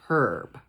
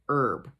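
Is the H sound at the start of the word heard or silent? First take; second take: heard; silent. First: The word begins with an audible H sound. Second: The word begins without any H sound. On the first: The speaker calls it wrong. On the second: The speaker calls it right.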